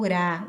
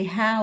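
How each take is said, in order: First: Rá with a single tongue-tap R; soft R. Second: Rá with a breathy, H-like initial R; strong R. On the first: Teacher showing what R A can sound like, rá with tapped R. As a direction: say rá with the R of barata. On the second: Teacher showing what R A can sound like, rá with throaty R. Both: Shown as a demonstration. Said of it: "o R A".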